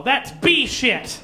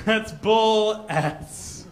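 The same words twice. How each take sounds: First: Slow, with "B" hit and "shit" clear; the better swap, said slowly; switched-around swear. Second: Slow, drawn "bull S" with the S spelled out; "bull S" stretched out slowly; halfway swear. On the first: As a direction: lean on "B" in "B shit". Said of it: "she said". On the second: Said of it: "she met it halfway". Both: Shown as a demonstration.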